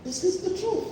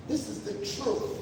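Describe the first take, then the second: First: Higher, ringing declaration; raised declaration. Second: Soft, almost whispered truth; hushed emphasis. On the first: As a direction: lift the voice to proclaim it. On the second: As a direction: drop to a near whisper. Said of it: "because this is the truth". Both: Shown as a demonstration.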